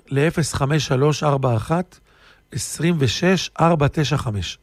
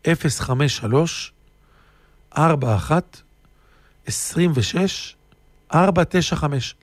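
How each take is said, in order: First: Said in the usual way. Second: Slow digits, pausing between groups; slowly repeated. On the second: Real, not acted. Speaker repeats the phone number for listeners, slowly. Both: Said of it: "אני חוזר לאט לאט".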